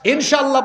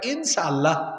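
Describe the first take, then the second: First: The middle consonant is a clear 'sh' sound. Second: The middle consonant is a plain 's' sound.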